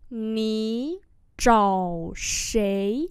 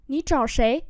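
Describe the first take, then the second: First: Slow, separated syllables; word-by-word pronunciation model; slow demonstration. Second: Said in the usual way. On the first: Shown as a demonstration. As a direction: draw out each tone for learners. Teacher repeats slowly for learners.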